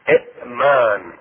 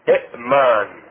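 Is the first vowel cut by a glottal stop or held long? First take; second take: glottal stop; glottal stop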